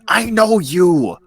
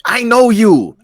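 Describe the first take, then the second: First: Drawn-out, pointed repeat, stress on know; slow insistence. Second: High, loud I know you; insistent shout. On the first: Friend repeating it slowly to make the point. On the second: Friend insisting she sees through him, loud. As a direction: push it hard at him. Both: Acted.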